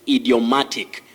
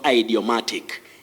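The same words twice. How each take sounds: First: The first vowel is a short 'ee' sound. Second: The first vowel is an 'eye' sound. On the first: The speaker calls it right. "also say idiomatic expression" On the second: The speaker calls it wrong. "not idiomatic"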